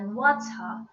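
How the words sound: The middle T is a strong, clear T. "the T has a very strong T sound"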